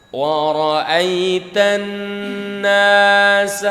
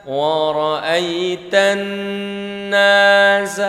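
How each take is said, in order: Both takes have the same delivery.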